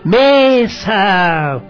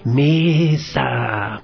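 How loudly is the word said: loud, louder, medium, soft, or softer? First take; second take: loud; soft. First: The word is said loudly. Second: The word is said softly. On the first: "digamos con fuerza" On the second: "digamos con poquita fuerza"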